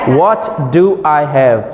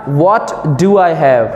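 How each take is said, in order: The two takes are said the same way.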